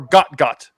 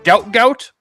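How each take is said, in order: First: The vowel sounds like the one in 'hot'. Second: The vowel sounds like the one in 'out'. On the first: The name is said the way its owner says it. "he goes by like Got Got" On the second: The name is read as it is spelled. "it's spelled out Gout Gout"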